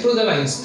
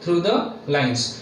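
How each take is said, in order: First: Said in the usual way. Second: Through the lines drawn out word by word; slow and deliberate. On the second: Shown as a demonstration. Teacher to shorthand students, slowly stressing the rule. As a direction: spell it out slowly for the class. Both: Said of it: "Through, through the lines outlines निकालना है".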